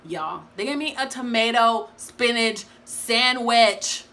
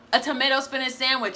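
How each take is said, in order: First: Slow, outraged and incredulous; higher and louder, in slow disbelief. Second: "A tomato spinach sandwich" repeated higher, still appalled; higher, stunned repeat; disbelief. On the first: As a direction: drag it out, appalled. Outraged at bad meal. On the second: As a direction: say it again like you cannot believe it. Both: Real, not acted.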